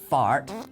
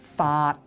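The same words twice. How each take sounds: First: It sounds like the English word fart. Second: It sounds like a Cantonese syllable. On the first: The speaker calls it wrong. "No, not fart" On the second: The speaker calls it right. "but fart. Completely different"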